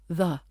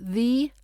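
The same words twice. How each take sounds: First: The word is said with a weak, reduced vowel. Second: The word is said with a full, strong vowel. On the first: The speaker calls it right. "we've got the weak the" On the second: The speaker calls it wrong. "Not the"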